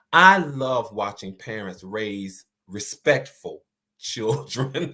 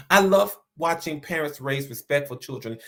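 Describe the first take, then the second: First: Slow line with "respectful" set apart; stress on respectful. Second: Said in the usual way. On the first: Real, not acted. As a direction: lean on "respectful", unhurried. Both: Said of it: "I put the emphasis on respectful".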